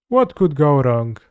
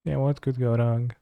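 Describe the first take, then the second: First: Mock it with a sneer; sarcastic. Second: Soft, muttered repeat; quiet. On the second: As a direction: say it under your breath. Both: Real, not acted. Sarcastic line then quiet repeat.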